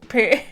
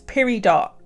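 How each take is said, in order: First: The word ends softly, with no 'dot' sound. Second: The word ends with a clear 'dot' sound. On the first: The speaker calls it right. "the T is just supposed to be like period" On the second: The speaker calls it wrong. "I will literally read this as peridot"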